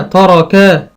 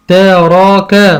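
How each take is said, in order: First: Said in the usual way. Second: تراكا stretched out slowly; slow, split reading. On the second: Shown as a demonstration. Teacher sounding out for a child, slowly. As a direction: draw تراكا out. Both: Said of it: "عندي مثلًا أقول".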